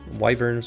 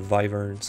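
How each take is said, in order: First: The word begins with a W sound. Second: The word begins with a V sound. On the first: "Wyverns or vyverns?" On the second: "I usually pronounce it vyverns"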